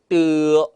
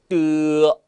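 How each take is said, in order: Both takes have the same delivery.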